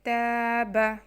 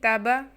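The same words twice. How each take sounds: First: The first vowel is held long. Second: The first vowel is clipped short. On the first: The speaker calls it right. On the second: The speaker calls it wrong.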